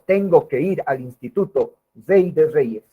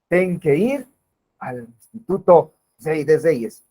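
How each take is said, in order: First: The first word is said in full. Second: The first word is cut short. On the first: The speaker calls it right. "Sería un ejemplo de lengua" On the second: The speaker calls it wrong. "Es una manera incorrecta incluso de poder pronunciar"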